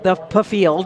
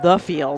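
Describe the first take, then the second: First: The word starts with a sounded p. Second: The word starts with an f sound. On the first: It is a joking local way to say it. The speaker calls it wrong. "we do call it the P field because it's funny" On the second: It is the official way to say it. The speaker calls it right. "I do believe it's called the field"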